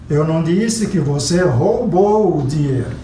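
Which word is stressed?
roubou. The stress falls on the word roubou. It was borrowed, not stolen. "você pegou emprestado"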